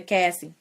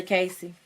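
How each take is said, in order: First: Cassie, with a short A as in "cat"; corrected name. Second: Casey, with a long A as in "case"; Casey with an "ay" first vowel; misread name. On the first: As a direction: say Cassie as KASS-ee. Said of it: "I've been saying Cassie this whole time". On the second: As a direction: say Casey as KAY-see. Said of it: "I keep saying Casey". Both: Real, not acted.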